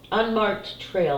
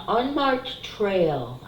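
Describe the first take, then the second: First: Slow careful reading. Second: Slow, drawn out "unmarked trail"; drawn-out "unmarked trail", read off the card. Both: Shown as a demonstration. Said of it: "I'm sorry".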